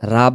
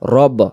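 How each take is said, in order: First: The vowel is an open, unrounded 'a'. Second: The vowel is a rounded, 'o'-like sound. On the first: The speaker calls it wrong. "রাব না" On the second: The speaker calls it right. "উচ্চারণটা হবে রব্বির"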